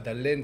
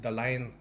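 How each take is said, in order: First: The vowel is a plain e sound. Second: The vowel glides from a to e. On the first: This is how French speakers say it. The speaker calls it wrong. "c'est pas Dalen" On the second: This is the local Khmer pronunciation. The speaker calls it right. "c'est Dalain"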